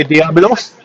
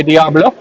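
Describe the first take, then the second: First: Diablos, finish on a hissed s. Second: Diablo, the final o open with no s; Diablo without s. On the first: Commentator unsure of team name, says Diablos with final s. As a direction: say Diablos with a clear s at the end. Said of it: "Some people say Diablos". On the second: Commentator unsure of team name, says Diablo without s. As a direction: say Diablo ending on a plain o, no s. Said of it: "Some people say Diablo". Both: Shown as a demonstration.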